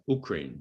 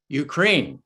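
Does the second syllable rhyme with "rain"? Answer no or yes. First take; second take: no; yes. First: The second syllable does not rhyme with rain. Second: The second syllable rhymes with rain. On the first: The speaker calls it wrong. "Some of you may have noticed he says U- Ukraine" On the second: The speaker calls it right. "it's Ukraine"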